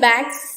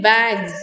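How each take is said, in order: First: The word ends in an s sound. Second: The word ends in a z sound. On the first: "instead of" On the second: "you get a z sound"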